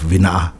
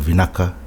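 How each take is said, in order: First: The k sound in the middle is left out. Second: The k sound is said plainly. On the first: Some villages' dialects say it this way. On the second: This is the common form.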